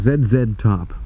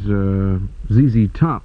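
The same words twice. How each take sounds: First: The letter Z is said as Canadian zed. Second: The letter Z is said as American zee. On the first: It follows the Canadian way of naming letters. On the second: It follows the American way of naming letters.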